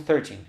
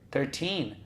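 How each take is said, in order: First: The stress is on the first syllable. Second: The stress is on the second syllable. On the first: The speaker calls it wrong. "Muita gente quer ler treze como treze" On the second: The speaker calls it right. "uma sílaba no ter e outra forte no teen"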